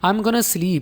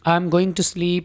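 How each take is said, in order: First: 'Going to' is shortened to 'gonna'. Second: 'Going to' is said as two full words. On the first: "I am गोइंग टू को short करके हम इस्तेमाल करते हैं I am गोना" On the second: "I am गोइंग यानी गोइंग के साथ टू लगाएंगे"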